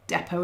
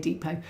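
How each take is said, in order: First: It is said with a British accent. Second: It is said with an American accent.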